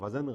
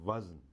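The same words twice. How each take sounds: First: A vowel is sounded between z and n. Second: No vowel is sounded between z and n. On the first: The speaker calls it wrong. "जे पे ज़बर लगा देते हैं ... ये वज़न गलत है" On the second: The speaker calls it right. "दुरुस्त लफ्ज़ है"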